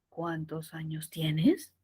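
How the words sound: It starts low and the pitch rises. The speaker calls it wrong. "ya no empiezo desde arriba en cuántos años tienes, sino desde abajo y subo"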